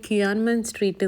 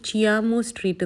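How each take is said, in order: First: The name begins with a 'ky' sound. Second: The name begins with a 'ch' sound. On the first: The speaker calls it wrong. "ക്യുയാൻമൻ സ്ട്രീറ്റ് എന്നല്ല" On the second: The speaker calls it right. "Actually ചിയാമോ സ്ട്രീറ്റ് എന്നാണ് പറയുന്നത്"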